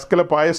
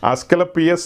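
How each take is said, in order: First: The name ends with a 'pie-us' sound. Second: The name ends with a 'pee-us' sound. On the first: "അല്ലെ അസ്കലപായസ് എന്ന് പറയും" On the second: "ഏ അസ്കലപിയസ് എന്ന് പറയും"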